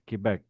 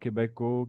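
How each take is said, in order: First: The word ends cleanly on a consonant sound. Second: The word ends with an added vowel sound. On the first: The speaker calls it right. "It's Quebec" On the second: The speaker calls it wrong. "It's not"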